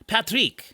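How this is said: The name is said with a European pronunciation. "somewhere in Europe, someone might pronounce it as Patrick"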